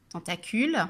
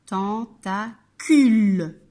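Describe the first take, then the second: First: Said in the usual way. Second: "Tentacule" slow, split ten-ta-cule, last syllable loud. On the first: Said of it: "les différentes parties de son corps sont". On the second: Shown as a demonstration. Teacher splitting a word for children, "Tentacule" slow with loud final syllable. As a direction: break "Tentacule" apart and stretch the cule. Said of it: "de cette syllabe".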